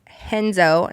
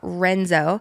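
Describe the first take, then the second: First: The name begins with an H sound. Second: The name begins with an R sound. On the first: The speaker calls it right. "It's Henzo" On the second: The speaker calls it wrong. "not Renzo"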